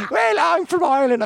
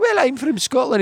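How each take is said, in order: First: Put-on high-pitched kid's Irish accent. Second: Put-on high-pitched, playful Scottish accent. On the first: Schoolboy showing off his Irish accent to a friend. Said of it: "Well, do an Irish accent". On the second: Schoolboy answering his friend's dare, in a Scottish accent. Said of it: "Well, do a Scottish accent".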